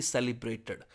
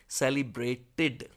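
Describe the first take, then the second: First: सेलिब्रेटेड ending with a dull "ad" sound; wrong pronunciation. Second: सेलिब्रेटेड slowly, with a clear "id" ending; correct pronunciation. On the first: Teacher showing students the wrong सेलिब्रेटेड ending. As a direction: end सेलिब्रेटेड with a swallowed -ad. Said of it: "ना कि". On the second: Teacher modelling the right सेलिब्रेटेड for students, slowly. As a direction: finish सेलिब्रेटेड on a crisp -tid. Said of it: "ना कि सेलिब्रेटेड". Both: Shown as a demonstration.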